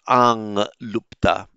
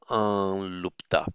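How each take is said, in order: First: A nasal ng sound comes before lupta. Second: A plain vowel comes before lupta, without ng. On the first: The speaker calls it wrong. "So not ang lupta" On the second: The speaker calls it right. "pronounced as just an ah, and with a slight hint of an L"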